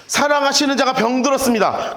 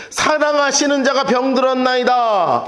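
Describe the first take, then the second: First: Said in the usual way. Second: Slow, archaic biblical recitation; formal King James style; solemn scripture reading. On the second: Shown as a demonstration. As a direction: read it like old scripture. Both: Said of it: "이렇게 해요".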